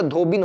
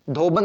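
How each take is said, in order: First: "धोबिन" ending in -bin, short i; correct form demonstrated. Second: "धोबन" ending in -ban, short a; wrong form demonstrated. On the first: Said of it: "धोबिन होता है". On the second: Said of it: "धोबन नहीं होता". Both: Shown as a demonstration.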